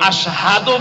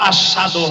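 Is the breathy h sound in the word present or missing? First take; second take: present; missing. First: The breathy h sound is clearly pronounced. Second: The breathy h sound is missing. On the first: This is the intended form of the word. The speaker calls it right. "আশহাদু বলার সময়" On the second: A defect of the tongue distorts the word. The speaker calls it wrong. "বাতাস বের না হয়া আশহাদু হয়ে যায়"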